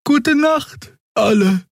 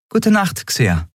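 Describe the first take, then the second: First: Very high, lilting sleepy goodnight; Xea's goodnight. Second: Higher but settled reply, falling; Andriel's goodnight. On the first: Xea bids the crew goodnight, high and sleepy. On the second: Captain answers Xea's goodnight, simply. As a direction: answer simply, letting it fall. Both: A narrator's reading.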